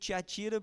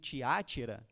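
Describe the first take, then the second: First: The stress falls on the third syllable. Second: The stress falls on the second syllable. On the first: "eu prefiro Tiatira porque não tem acento" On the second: "alguns é, pronunciam Tiátira"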